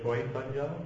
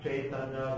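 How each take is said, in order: First: The first vowel is a rounded O-like sound. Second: The first vowel is an open A sound.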